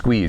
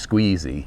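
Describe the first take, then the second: First: The word ends without an extra vowel sound. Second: The word ends with an extra 'ee' sound. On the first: The speaker calls it right. "it's just squeeze" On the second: The speaker calls it wrong. "You don't pronounce the last E in squeeze"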